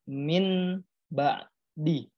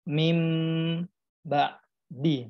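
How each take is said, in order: First: An n sound comes before the b. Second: An m sound comes before the b. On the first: The speaker calls it wrong. "Bukan dibaca min ba'di" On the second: The speaker calls it right. "tetapi mim ba'di"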